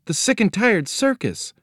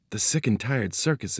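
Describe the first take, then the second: First: High-pitched echo of disbelief; shocked girl. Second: Said in the usual way. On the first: A narrator's reading. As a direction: repeat it way up high, as an alarmed child. Girl repeats it in alarm.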